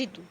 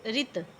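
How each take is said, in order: First: ऋतु ending in a clear u; final u vowel. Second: ऋत ending on the t; no final u. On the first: Teacher contrasting similar words, ऋतु with u at the end. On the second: Teacher contrasting similar words, ऋत with no u at the end. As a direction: say ऋत as "rit", without final vowel. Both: Shown as a demonstration. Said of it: "सिर्फ ऊ की मात्रा का ही अंतर है".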